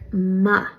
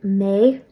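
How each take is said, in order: First: The vowel is a short, reduced 'a' sound. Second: The vowel is a full 'ay' sound. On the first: Casual everyday speech. "in everyday speech... pronounced like ma" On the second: Careful or emphasized speech. "technically, you'll pronounce it may"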